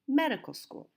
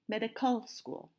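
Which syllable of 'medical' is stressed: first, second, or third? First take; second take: first; third. First: The stress is on the first syllable. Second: The stress is on the third syllable. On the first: The speaker calls it right. "So we say medical school. The stress is on the first syllable" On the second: The speaker calls it wrong. "And we don't say medical school"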